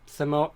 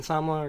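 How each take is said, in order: First: "Samoa" as suh-MO-uh; three-syllable Samoa. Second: "Samoa" as SAHM-wah; two-syllable Samoa. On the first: Settling on the usual island name, "Samoa" as suh-MO-uh. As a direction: correct yourself to "Samoa" as suh-MO-uh. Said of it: "I guess American Samoa is what". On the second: Unsure of the island's name, "Samoa" as SAHM-wah. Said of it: "is what everyone call it". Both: Shown as a demonstration.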